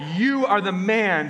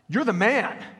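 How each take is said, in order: First: It sounds like a pointed accusation. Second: It sounds like cheerful praise. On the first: The listener is the guilty man in the story. The speaker calls it right. "that's not how Nathan said it to David. He's like, you are the man from the story" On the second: The listener is being complimented. The speaker calls it wrong. "he read it like this. He read it like, you're the man, like that"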